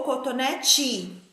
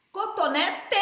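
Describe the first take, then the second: First: "cotonete" ending in a chi sound; "cotonete" slowed, last vowel turned to i; final E said as I. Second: "Cotonete" ending in a clear te, pitched up; "Cotonete" with a full e on the last syllable; final E as written. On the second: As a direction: say "Cotonete" as coto-NE-TE, just as spelt. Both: Shown as a demonstration. Teacher contrasts E and I endings.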